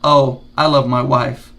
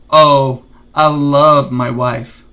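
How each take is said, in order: First: It is said flatly, without emotion. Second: It is said with warm, clear emotion. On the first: The speaker calls it wrong. "instead of saying" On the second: The speaker calls it right. "Show emotions when you're talking"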